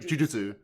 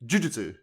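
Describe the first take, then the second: First: The stress is on the first syllable. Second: The same.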